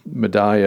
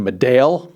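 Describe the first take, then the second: First: The name ends without any L sound. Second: The name ends with an L sound. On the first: The speaker calls it right. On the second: The speaker calls it wrong.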